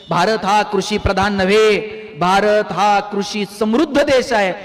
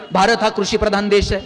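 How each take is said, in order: First: Slow, weighty correction with नव्हे pressed hard; pause, then land नव्हे firmly and slowly; stress on नव्हे. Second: Said in the usual way. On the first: Shown as a demonstration. Preacher correcting the old slogan for the crowd, slow and stressed. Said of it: "असं सांगायची वेळ आली पाहिजे". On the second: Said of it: "किती दिवस आपण सांगायचं".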